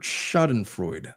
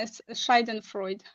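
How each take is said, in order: First: Schadenfreude said slowly, SHAH-den-froyd; careful pronunciation. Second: Schadenfreude said SHY-den-froyd, German style; German pronunciation. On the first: Reading the word for the co-host, slow and careful. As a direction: sound out schadenfreude slowly and softly. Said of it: "how do you pronounce that word". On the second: Answering the co-host's question, German-style pronunciation. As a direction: give Schadenfreude a German twist, slowed. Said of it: "you kinda sound a little bit German". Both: Shown as a demonstration.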